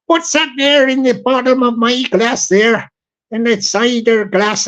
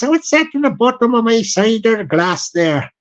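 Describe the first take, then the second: First: Light West Country voice slipping toward Irish; a puzzled local in a half-Irish southwest accent; lightly done southwest English accent; southwest accent drifting Irish. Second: Fuller West Country drinker's voice, edging Irish; a broader West Country accent with an Irish tinge; broader southwest accent. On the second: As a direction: lean further into the southwest accent. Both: Retold or imitated. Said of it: "It's turning a bit Irish as well there".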